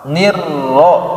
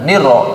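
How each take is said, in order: First: The r sound is held long. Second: The r sound is cut short. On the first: The speaker calls it right. "tahan ro-nya" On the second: The speaker calls it wrong. "jangan niro"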